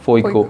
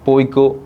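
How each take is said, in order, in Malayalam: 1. ഈ വാക്ക് f ശബ്ദത്തിലാണ് തുടങ്ങുന്നത്. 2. ഈ വാക്ക് സാധാരണ p ശബ്ദത്തിലാണ് തുടങ്ങുന്നത്.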